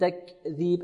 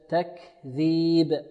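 First: A small extra voiced sound follows the kaf. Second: The kaf is released with only breath. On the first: The speaker calls it wrong. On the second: The speaker calls it right.

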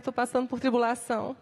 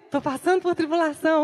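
First: It is said in a sad, mournful tone. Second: It is said in a joyful, excited tone. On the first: The hardship is seen as a reason for sorrow. The speaker calls it wrong. "O jeito errado de entender ou enxergar é que é motivo de tristeza. Ai" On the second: The hardship is seen as a reason for joy. The speaker calls it right. "a maneira correta é que é motivo de alegria"

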